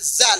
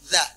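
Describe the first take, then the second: First: It has a buzzing z, with the tongue kept inside. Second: It has a th-like sound, with the tongue out. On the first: The speaker calls it wrong. "dibunyikan za" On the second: The speaker calls it right. "Coba lidahnya keluarin"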